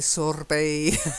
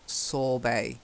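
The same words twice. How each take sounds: First: The R sound is clearly pronounced. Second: The R sound is left silent. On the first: The speaker calls it wrong. "we don't say sorbet" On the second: The speaker calls it right. "silent R"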